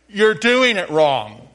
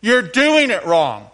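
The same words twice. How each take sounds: First: Slow, loud, know-it-all put-down; smug, drawn-out correction; with an attitude. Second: Slow, loud, smug scolding; teasing know-it-all; with an attitude. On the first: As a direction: lean on doing and let it fall like a scolding. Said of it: "you gotta say it with an attitude". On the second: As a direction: drag it out and stress doing, falling at the end. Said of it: "I'll say it and then you say it". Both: Shown as a demonstration.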